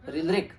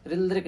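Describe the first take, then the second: First: The proper "रिलरिक", a short vowel-like syllabic r; teacher models the correct "रिलरिक"; correct pronunciation. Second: The wrong "रिलरिक", read as written with a plain r; wrong pronunciation. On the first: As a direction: say "रिलरिक" the right Sanskrit way. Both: Shown as a demonstration. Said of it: "रिलरिक नहीं बोलते हैं".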